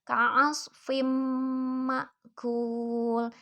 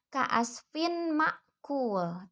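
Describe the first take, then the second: First: The n merges into a held, nasal m. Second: The n sound is pronounced clearly without merging. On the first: The speaker calls it right. "idgham bigunnah" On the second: The speaker calls it wrong.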